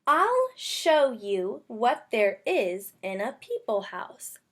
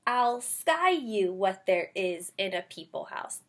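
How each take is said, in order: First: Slow, even read-aloud, every word clear; slow careful reading. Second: Slow read-aloud with sky said in place of show; wrong word read. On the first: Teacher modeling a careful slow read-aloud. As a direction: read it slowly so the kids can follow. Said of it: "Let's read it and see". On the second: Teacher showing kids a reading that makes no sense. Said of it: "If I thought it was sky, I would say". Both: Shown as a demonstration.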